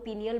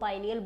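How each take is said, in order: First: The first syllable has an 'ee' vowel. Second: The first syllable has an 'eye' vowel. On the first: "पीनियल बोलो" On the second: "पाइनियल बोलो"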